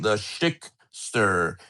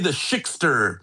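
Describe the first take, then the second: First: It is said slowly and drawn out. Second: It is said at a normal speed.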